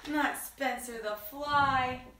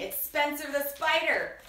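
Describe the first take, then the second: First: Slow, with "fly" drawn out; stress on fly. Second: "spider" emphasized as the correct name; stress on spider. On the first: Storyteller rejects her own slip, slowly stressing "fly". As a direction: stretch "fly" as the mistaken one. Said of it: "That was silly of me". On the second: Storyteller corrects her own slip, stressing "spider". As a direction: land firmly on "spider". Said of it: "Did I call the fly Spencer?". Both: Real, not acted.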